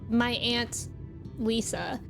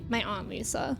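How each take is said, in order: First: The word aunt is said in an Ohio way. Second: The word aunt is said in a Boston-influenced way. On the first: "people in Ohio say" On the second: "but I say"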